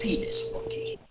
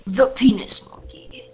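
First: High falsetto squeak; squeaky high voice. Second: Breathy mock whisper. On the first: Pretend. Silly nickname repeated high. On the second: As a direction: whisper it like a secret. Silly whispered nickname.

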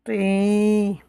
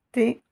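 First: "T" as "tiii", the vowel held long. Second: "T" as emphatic "ti" with a short i; short vowel. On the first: Teacher shows long vowels, drawn-out ti. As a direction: stretch out the i steadily. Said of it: "Avec les voyelles longues". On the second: Teacher shows short vowels, brief ti. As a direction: cut the "i" short. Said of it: "avec les voyelles courtes". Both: Shown as a demonstration.

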